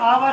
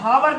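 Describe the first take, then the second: First: The word begins directly with a vowel. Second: The word begins with an h sound. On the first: The speaker calls it right. "ये आवर है" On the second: The speaker calls it wrong. "हावर नहीं पढ़ेंगे"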